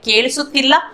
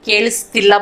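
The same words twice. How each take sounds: First: The word is said in its full, longer form. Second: The word is said in a shortened form. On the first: This is the form used in reading and writing. "ये पढ़ने लिखने का" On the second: This is the form used in everyday speech. "Spoken में हम केलिसुत्तिल्ला बोलते हैं"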